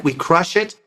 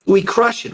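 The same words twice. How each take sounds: First: Said in the usual way. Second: "We crush it," jumps much higher, pressed tight after a gasp; squeezed crush. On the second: Shown as a demonstration. Coach showing how a dysphonic clamps the air, "crush" squeezed high.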